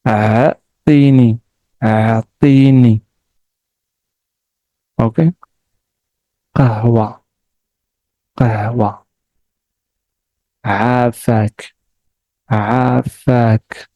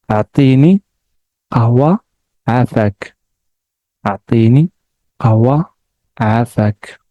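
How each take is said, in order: First: Each word slow and separate, with pauses; slow repetition. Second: The words run together quickly; fast. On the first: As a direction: say each word slowly twice. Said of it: "I will repeat it slowly and then fast". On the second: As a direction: rattle the phrase off fast. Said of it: "So fast". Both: Shown as a demonstration.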